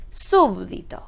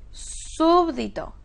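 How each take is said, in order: First: Said in the usual way. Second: "súbdito" slow, high on SÚB; syllable by syllable. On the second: Shown as a demonstration. Teacher quizzing on word type, "súbdito" syllable by syllable. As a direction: stretch "súbdito", pitching SÚB up. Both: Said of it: "¿Qué palabra es?".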